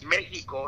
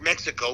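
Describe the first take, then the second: First: Mexico is pronounced the Spanish way. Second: Mexico is pronounced the English way. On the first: This is how people from there say it. The speaker calls it right. "it's Mexico" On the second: This is how outsiders say it. The speaker calls it wrong. "not Mexico"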